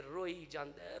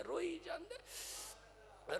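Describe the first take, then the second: First: Said in the usual way. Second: High, soft, slow mock wail; imitating someone sobbing; acted weeping. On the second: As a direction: draw the words out into a thin acted cry.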